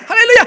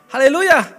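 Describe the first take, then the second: First: It is said quickly, words running together. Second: It is said at a normal, unhurried pace.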